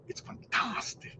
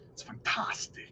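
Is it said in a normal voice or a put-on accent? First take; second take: put-on accent; normal voice. First: It is said in a Nacho Libre impression. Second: It is said in his normal voice.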